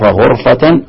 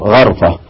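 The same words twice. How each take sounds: First: Slow "ghurfa" for غرفة; غرفة with u after gh; damma on ghayn. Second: Slow "gharfa" for غرفة; غرفة with a after gh; fatha on ghayn. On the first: Teacher restating the two readings, damma on غرفة, "ghurfa". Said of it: "الضم، ضم الغين". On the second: Teacher restating the two readings, fatha on غرفة, "gharfa". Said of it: "وفتح الغين". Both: Shown as a demonstration.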